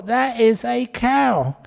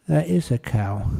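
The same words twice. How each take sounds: First: Slow, stubborn That is a cow; mock stubborn wife digging in; insistent wife. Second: That is a cow said gently, yielding; gentle concession. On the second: Acted. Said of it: "he squeezed her hand gently".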